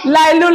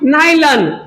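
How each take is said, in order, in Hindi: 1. शब्द L ध्वनि से शुरू होता है। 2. शब्द N ध्वनि से शुरू होता है। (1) "लाइलून कुछ नहीं होता" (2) "नाइलन होता है"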